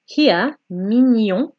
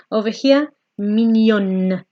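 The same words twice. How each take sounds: First: Mignon with the n swallowed, nasal ending cut short; swallowed final n. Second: Mignonne with the n fully sounded at the end; clear final n. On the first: Teacher contrasting French endings, mignon with n swallowed. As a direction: say mignon without finishing the n. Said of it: "We're almost swallowing the N sound". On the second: Teacher contrasting French endings, mignonne with full n sound. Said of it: "we're actually pronouncing the N sound". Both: Shown as a demonstration.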